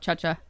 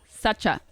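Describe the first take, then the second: First: The name begins with a ch sound. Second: The name begins with an s sound. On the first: This comes from a common misreading of the spelling. The speaker calls it wrong. "a common mistake because of the ch in the middle. So it comes out cha cha" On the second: This is how the name is said in Chile. The speaker calls it right. "how they say my name in Chilean ... It's like Sacha. Like that"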